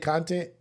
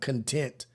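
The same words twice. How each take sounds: First: The stress is on the first syllable. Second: The stress is on the second syllable. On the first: It means material made for an audience. "Like what we say content" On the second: It means satisfied. "Like I'm content with living this way"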